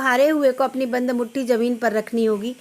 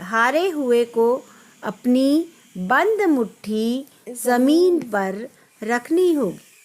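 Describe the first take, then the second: First: The long vowels are cut short. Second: The long vowels are stretched out. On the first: The speaker calls it wrong. "इस तरह की जो reading बच्चे करते हैं ये गलत करते हैं" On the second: The speaker calls it right. "तो ये चीज़ अच्छी लगती है।"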